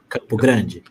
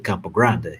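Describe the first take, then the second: First: It is said with a Brazilian Portuguese accent. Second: It is said with an American English accent. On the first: It is the way locals say it in Portuguese. "which is the way that we pronounce" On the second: It is adapted for speaking English. "the accent that Americans uh, actually use when they say the name of Brazilian cities"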